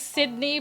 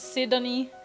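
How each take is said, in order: First: Some vowels are dropped, giving a shorter name. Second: Every vowel is pronounced, giving a longer name. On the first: "I would rather just say Sydney" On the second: "all the vowels pronounced as Sidonie"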